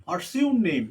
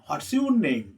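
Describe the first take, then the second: No difference in how they are said.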